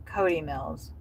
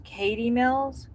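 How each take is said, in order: First: Cody stressed and falling in a firm correction. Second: Katy Mills said as a questioning guess, rising; tentative Katy Mills with a rising tune; self-correcting name. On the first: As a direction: land on Cody, settle it. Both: Shown as a demonstration.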